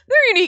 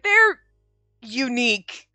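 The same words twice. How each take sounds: First: Unique is said in a warm, sincere tone. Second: Unique is said in a mocking, sarcastic tone. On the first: It is a compliment. "It's not like they're unique" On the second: It is meant as an insult. "it's not a nice unique"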